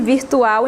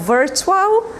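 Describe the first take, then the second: First: The word is pronounced with Portuguese sounds. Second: The word is pronounced with English sounds. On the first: "virtual em português" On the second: "virtual em inglês"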